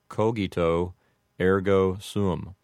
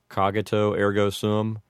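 First: Hard G and long O sounds in cogito. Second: Americanized vowels with a hard G in cogito. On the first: "you would make the G in cogito a hard G... the O's would have a long O sound" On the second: "with an Americanized type of pronunciation"

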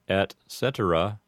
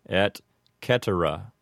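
First: The C in cetera is a soft S sound. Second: The C in cetera is a hard K sound. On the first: This is the Americanized pronunciation. "An Americanized way to say this expression" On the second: This follows strict Latin pronunciation. "the C in cetera would be a hard C"

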